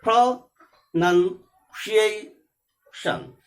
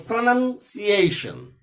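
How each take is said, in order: First: Pronunciation broken into pro... nun... cia... tion with clear pauses; syllable by syllable. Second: Pronunciation in one slow piece, stressing PRO and the A of -ation; joined, strong syllables stressed. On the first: Teacher showing how to speak it, pronunciation split into four separate syllables. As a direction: say pronunciation very slowly, each syllable on its own. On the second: Teacher putting the word back together, pronunciation slow and joined with clear stresses. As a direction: join up pronunciation but keep its strong beats clear.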